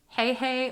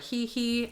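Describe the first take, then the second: First: Each syllable has the vowel of 'hay'. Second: Each syllable has the vowel of 'he'. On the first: It sounds exciting and fun. "I like Hey Hey just because it's like Hey Hey" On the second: It sounds less exciting and fun. "He He doesn't sound as exciting or fun"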